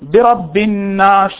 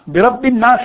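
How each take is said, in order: First: The nasal sound is held for about two beats. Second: The nasal sound is clipped short without holding. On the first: The speaker calls it right. "ایک دو الف تو کھینچیں گے" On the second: The speaker calls it wrong. "نہیں ہے... وہاں جزم ہے"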